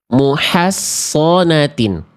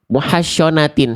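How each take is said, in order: First: It uses a heavy s with darker vowel. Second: It uses a hushing sh sound. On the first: The speaker calls it right. "Tinggal naikin lidah dalam" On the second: The speaker calls it wrong. "syo jangan, makin jauh"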